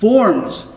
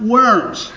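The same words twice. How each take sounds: First: The name is said with German pronunciation. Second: The name is said with English pronunciation. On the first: The speaker calls it right. "Note the German pronunciation of Worms" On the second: The speaker calls it wrong. "It is not Worms"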